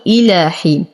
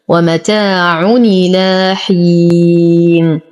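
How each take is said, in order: First: إلى حين spoken with a clear glottal hamza at the start of إلى; إلى حين with an audible hamza onset. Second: ومتاع إلى حين chanted slowly, the hamza of إلى dropped and its vowel carried onto the tanween; slow melodic naql reading; naql recitation. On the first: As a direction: begin cleanly on the hamza of إلى. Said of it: "لو ابتدأت بالهمزة أقول". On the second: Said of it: "أيضًا هنا نقل همز". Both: Shown as a demonstration.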